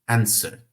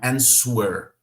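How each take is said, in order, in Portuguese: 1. O S vai direto para a vogal, sem W. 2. Um som de W claro vem depois do S. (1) "o W será quase que ignorado" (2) "Não é answer. Não dê uma ênfase no U"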